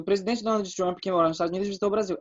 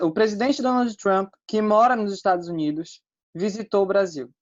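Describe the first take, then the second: First: The sentence runs on without pauses around the clause. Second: Pauses set off the middle clause on both sides. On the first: There are several presidents with that name. The speaker calls it wrong. "É como se houvesse vários presidentes com esse nome" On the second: The clause only adds extra information about him. The speaker calls it right. "se você diz assim"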